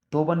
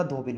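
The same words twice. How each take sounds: First: धोबन said "dhoban", with a short a; "ban" ending. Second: Said in the usual way. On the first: Shown as a demonstration. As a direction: end धोबन on "ban", not "bin". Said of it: "नहीं होता". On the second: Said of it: "होती है".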